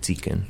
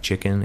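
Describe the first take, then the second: First: "chicken" said as "tsicken"; Greek CH as TS. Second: Said in the usual way. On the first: Shown as a demonstration. Guest shows how Greeks say CH, "tsicken". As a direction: turn the CH of "chicken" into a TS sound. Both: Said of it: "they have a hard time pronouncing C H".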